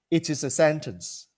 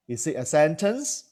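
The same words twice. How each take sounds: First: "It is a sentence" said with a falling tune; statement tune. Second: "sentence" lifted at the end, rising; question tune. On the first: Teacher demos a sentence as a statement, falling. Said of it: "A sentence can end as if it is a question". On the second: Teacher turns the sentence into a question, rising tune. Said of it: "by using tonality". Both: Shown as a demonstration.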